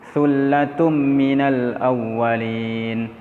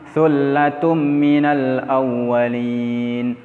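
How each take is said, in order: No difference in how they are said.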